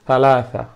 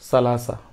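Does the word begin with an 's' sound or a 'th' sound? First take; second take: th sound; s sound. First: The first sound is a lisped 'th' sound. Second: The first sound is a hissing 's' sound. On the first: The speaker calls it right. "শুদ্ধ করে উচ্চারণ করতে হবে সালাসা" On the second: The speaker calls it wrong. "কেউ বললো সালাসা, তাহলে মনে করতে হবে যে তার উচ্চারণটা ভুল"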